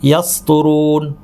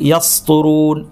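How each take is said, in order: The two takes are said the same way.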